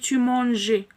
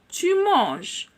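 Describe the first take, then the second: First: The written ending is voiced as a vowel. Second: The written ending is left silent. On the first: The speaker calls it wrong. "c'est incorrect" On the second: The speaker calls it right. "Donc, tu parles, tu manges"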